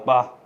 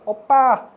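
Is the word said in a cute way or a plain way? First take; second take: plain; cute. First: It is said flatly, in a dry plain tone. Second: It is said sweetly, in an exaggerated cute tone. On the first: It is just a neutral way of addressing an older brother. "But you just say like, ah, oppa. You can say like that" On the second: It sounds affectionate and flirty, like in media. "It doesn't have to be like oppa. Oh my god, I'm getting cringe while I'm doing it"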